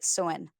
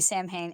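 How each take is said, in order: First: It is said the Celtic way, unlike its spelling. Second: It is read the way it is spelled. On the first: The speaker calls it right. "and it's like" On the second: The speaker calls it wrong. "as an American, you want to say"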